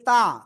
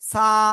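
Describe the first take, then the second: First: It starts with a plain t sound. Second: It starts with a plain s sound. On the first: "যদি কেউ তা উচ্চারণ করেন তয়াকারে তা, তাহলে ভুল।" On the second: "এই যে সা, এটা বলা যাবে না ডাইরেক্ট।"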